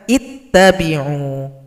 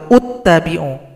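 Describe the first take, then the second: First: The word begins with an i vowel. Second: The word begins with a u vowel. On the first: The speaker calls it right. "Harus dibaca ittabi'u" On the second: The speaker calls it wrong. "atau uttabi'u"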